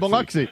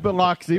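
First: It is pronounced the way local people say it. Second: It is pronounced the way the spelling suggests. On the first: This is how people who live there say it. The speaker calls it right. "anybody who's down here knows it's really Biloxi" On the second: This is how an outsider reading the name would say it. The speaker calls it wrong. "When I'm reading it, it looks like Biloxi"

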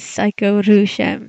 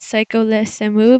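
First: The name ends with a sound like 'rushemu'. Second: The name ends with a sound like 'le semu'. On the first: It follows the Japanese katakana. "but the katakana says Psycho Rushem" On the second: It follows the English spelling. "Some people pronounce it Psycho Le Semu because of the way that it is written in English"

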